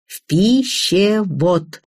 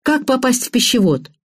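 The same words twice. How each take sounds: First: "пищевод" slowly broken into separate syllables. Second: Said in the usual way. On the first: A narrator's reading. Woman repeats "пищевод" for her friend, slowly syllable by syllable. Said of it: "по слогам прошептала я".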